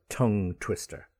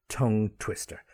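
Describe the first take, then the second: The two takes are said the same way.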